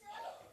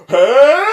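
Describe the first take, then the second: First: It is said very quietly. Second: It is said very loudly.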